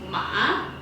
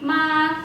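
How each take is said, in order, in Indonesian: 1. Nadanya turun dulu, lalu naik. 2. Nadanya tetap datar dan tinggi. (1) "pakai nada yang ketiga" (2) "nada datar itu artinya apa? Artinya ibu"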